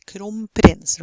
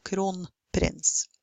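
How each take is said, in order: First: "kronprins" said as "kromprins"; assimilated n. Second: "kronprins" with a clear n; unassimilated n. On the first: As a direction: Norwegian "kronprins" with m before p. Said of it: "many people say kronprins". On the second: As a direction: keep the n apart in Norwegian "kronprins". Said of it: "instead of kronprins". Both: Shown as a demonstration.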